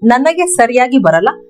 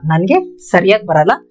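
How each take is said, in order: First: Sariyagi is said in full with its final vowel. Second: Sariyagi is clipped, dropping its final vowel.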